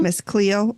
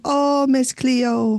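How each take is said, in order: First: Said in the usual way. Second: Slow, drawn-out Jamaican accent. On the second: Shown as a demonstration. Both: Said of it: "That's all I can do of a Jamaican accent".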